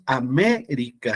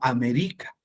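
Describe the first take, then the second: First: The stress falls where standard Spanish puts it. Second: The stress is moved as in Quechua. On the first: "no decimos"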